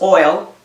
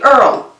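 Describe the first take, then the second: First: The vowel is pronounced as oy. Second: The vowel is pronounced as er. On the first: "if O I L is oil" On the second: "we say Earl"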